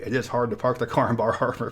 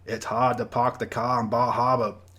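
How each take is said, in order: First: It is said in the speaker's ordinary accent. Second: It is said in a put-on New England accent.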